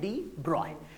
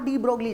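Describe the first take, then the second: First: The surname is said as 'broy' without 'g'. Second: The surname is said with a 'gl' sound. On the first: This is how the name is actually read. The speaker calls it right. "पढ़ा जाता है डी ब्रॉय" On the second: This follows the written spelling. The speaker calls it wrong. "उसे लिखा de ब्रोगली जाता है"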